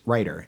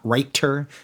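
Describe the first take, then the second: First: The middle consonant is a quick flap. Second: The middle consonant is a clear T. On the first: The speaker calls it right. "that is a flap" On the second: The speaker calls it wrong. "not a T sound"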